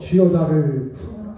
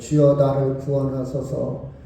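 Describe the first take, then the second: First: It is said urgently, with desperate emotion. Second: It is said flatly, without much emotion.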